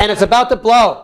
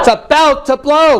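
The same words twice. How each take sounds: First: Restrained first take of anger; modelled pent-up anger. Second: Modelled explosive anger. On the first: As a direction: hold the pressure in as you say it. First take, then pushed harder. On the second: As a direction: push it out like an eruption. Harder take, urging client on. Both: Shown as a demonstration.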